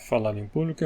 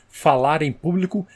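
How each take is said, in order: First: It is mumbled with the mouth barely open. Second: It is clearly articulated with the mouth wide open. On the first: The speaker calls it wrong. "se você não abre a boca para falar, esse fonema não sai direito" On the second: The speaker calls it right. "fazendo essa articulação, abrindo mais a boca para falar"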